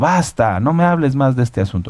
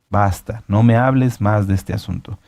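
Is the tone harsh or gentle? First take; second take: harsh; gentle. First: It is said as a harsh, energetic rebuke. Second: It is said calmly, without an energetic rebuke.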